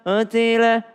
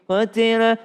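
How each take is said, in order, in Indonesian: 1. Vokal pertama ragu-ragu dan dibulatkan dengan lemah. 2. Vokal pertama ragu-ragu dan dibulatkan dengan lemah.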